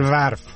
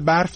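First: The word begins with a v sound. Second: The word begins with a b sound.

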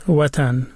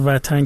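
First: The word begins with a rounded w sound. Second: The word begins with a v sound. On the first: This is the older form kept in Dari and Tajik. "اونا و نمی گن بیشتر جا، مثلا می گن" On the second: This is the changed form used in Iran. "که ما میگیم این ایرانی شده است"

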